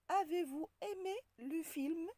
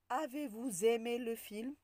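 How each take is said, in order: First: No z sound links vous to aimé. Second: A z sound links vous to aimé. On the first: The speaker calls it right. "On dit" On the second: The speaker calls it wrong. "On ne dit pas"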